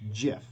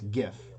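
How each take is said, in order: First: The word begins with a soft J sound. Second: The word begins with a hard G sound. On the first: The speaker calls it right. "pronounced as GIF with a J, like the peanut butter" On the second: The speaker calls it wrong. "I just said it wrong"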